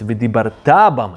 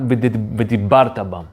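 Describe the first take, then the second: First: The stress falls on the final syllable. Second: The stress falls on the second-to-last syllable. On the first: You shall speak about Torah endlessly. The speaker calls it right. "it's ודיברת bam" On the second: You used to speak about Torah in the past. The speaker calls it wrong. "Not ודיברת בם"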